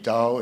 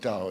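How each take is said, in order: First: The syllable is said with a high level tone. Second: The syllable is said with a sharp falling tone. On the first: "is first tone" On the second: "is fourth tone"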